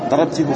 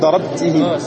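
First: The last syllable is pronounced with a 'u' vowel. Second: The last syllable is pronounced with an 'i' vowel. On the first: The speaker calls it wrong. "Darabtihu, ça se dit pas" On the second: The speaker calls it right. "C'est pas avec une dhamma, mais avec une kasra"

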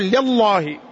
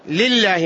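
First: The L in lillah is full and heavy. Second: The L in lillah is thin and light. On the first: The speaker calls it wrong. "ما تقول لله" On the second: The speaker calls it right. "ترقق لفظة الجلالة"

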